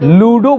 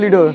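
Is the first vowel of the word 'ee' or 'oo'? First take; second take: oo; ee. First: The first vowel is an 'oo' sound. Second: The first vowel is an 'ee' sound. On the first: This is the standard way to say it. "लूडो बोला जाता है" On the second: This is how people from Bihar often say it. "हम लोग बिहारी लोग ढेर बोलते हैं लीडो"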